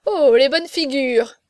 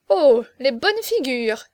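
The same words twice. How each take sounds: First: Loud, drawn-out gleeful exclamation; hilarious mockery. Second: Slow, louder mocking exclamation; amused mockery. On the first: Friend echoing the marquis's joke, loud amused mockery. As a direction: echo the jeer, louder and more amused. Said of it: "Navaille riait aux larmes et répétait". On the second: Young marquis eyeing the crowd, amused mockery. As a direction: draw it out, making fun of the faces. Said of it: "riait aux larmes et répétait". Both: A narrator's reading.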